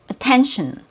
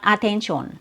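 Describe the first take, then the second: First: The unstressed syllables have reduced schwa vowels. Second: The unstressed syllables have full, unreduced vowels. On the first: The speaker calls it right. "you only open your mouth one time, and that's for your stressed syllable" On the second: The speaker calls it wrong. "So it's not attention"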